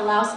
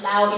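First: The word ends with an audible S sound. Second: The word ends without any S sound. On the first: The speaker calls it wrong. "the name of my poem is called" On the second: The speaker calls it right. "because there's no S in the proper pronunciation"

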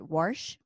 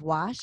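First: It is said with a southern family pronunciation. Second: It is said with a standard pronunciation. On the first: This is how an older relative said it. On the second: This is the usual way to say it.

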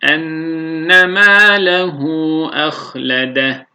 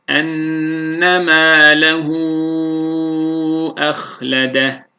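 First: It is recited quickly, with the shortest lengthening. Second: It is recited slowly, with the longest lengthening. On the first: "hadır okuyuşunda ise bir elif miktarı uzatıyoruz" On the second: "Yavaş okuyuşta, tahkikte"

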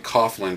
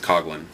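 First: The gh is said as an f sound. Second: The gh is not said as an f sound. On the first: The speaker calls it wrong. "I always want to say Coughlin because G-H in normal American English, G-H can sometimes make an F sound" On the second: The speaker calls it right. "But it's Coughlin"

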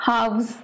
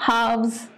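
No difference in how they are said.

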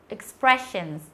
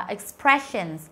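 No difference in how they are said.

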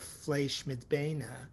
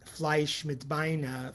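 First: It is said in a standard Yiddish accent. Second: It is said in a Galitzianer Yiddish accent. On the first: The speaker calls it right. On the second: The speaker calls it wrong.

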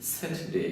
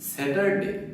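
First: It is said with a British English accent. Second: It is said with a Bengali English accent. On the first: The speaker calls it right. "ব্রিটিশরা বলে" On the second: The speaker calls it wrong. "আমরা বলি"

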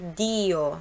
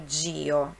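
First: The d is a plain, hard d sound. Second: The d sounds like 'dj' before the i. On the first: The speaker calls it right. "no italiano DI a pronúncia é DI" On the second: The speaker calls it wrong. "não é DIO"

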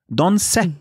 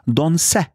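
First: The name ends with a short 'e' vowel. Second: The same.

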